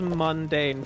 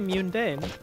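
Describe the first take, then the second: First: The stress is on the second syllable. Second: The stress is on the first syllable. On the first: "pronouncing it as mundane feels incorrect to me" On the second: "I put emphasis on the U"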